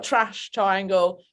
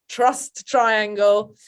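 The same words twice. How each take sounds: First: "trash triangle" with a flat open a, so trust sounds like "trash"; London pronunciation. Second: "Trust triangle" slow and clear, a rounded "trust"; over-careful "Trust triangle", every sound spelled out; careful correction. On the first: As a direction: say "trash triangle" slowly, vowel spread wide. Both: Shown as a demonstration. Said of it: "It's a very thick London accent".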